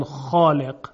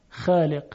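First: خالق with a dark, backed long a; heavy tajwid kha. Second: خالق with a light front a, "xæːleq"; Egyptian-radio thin خالق; thinned kha. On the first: Shown as a demonstration. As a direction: say خالق full and heavy, like "xɔːleq". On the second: Retold or imitated. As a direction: keep the vowel of خالق thin and forward.

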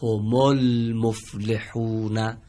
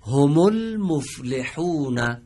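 First: هم المفلحون read slowly with هم joined to ال as homol. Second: هم المفلحون drawn out slowly, syllable by syllable; slow recitation. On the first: Teacher reads the phrase again, joined. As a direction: link هم into المفلحون, alef silent. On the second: Teacher models the second phrase slowly. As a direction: read هم المفلحون slowly for the class. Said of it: "بریم عبارت دوم". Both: Shown as a demonstration.

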